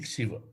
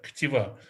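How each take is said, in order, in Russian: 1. Средний согласный — звук s. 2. Средний согласный — звук t. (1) "на ашкеназском произношении ксива" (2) "это еврейский термин ктива или ктуба"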